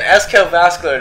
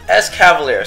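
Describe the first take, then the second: First: The name sounds like 'escal vascular'. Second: The name sounds like 'esca-valier'. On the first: The speaker calls it wrong. "That's the incorrect pronunciation" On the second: The speaker calls it right. "so easy"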